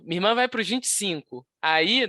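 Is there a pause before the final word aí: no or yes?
yes. A pause comes before aí, starting a new phrase. The speaker calls it right.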